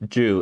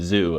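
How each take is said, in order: First: The word begins with a 'j' sound. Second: The word begins with a 'z' sound. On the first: The speaker calls it right. "just pronounce it Ju" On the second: The speaker calls it wrong. "instead of Zoo"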